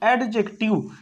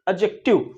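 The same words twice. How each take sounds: First: The d sound is clearly pronounced. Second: The d sound is silent. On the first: The speaker calls it wrong. "कई लोग इसको क्या बोलते हैं एडजेक्टिव" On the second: The speaker calls it right. "ये क्या होता है साइलेंट होता है"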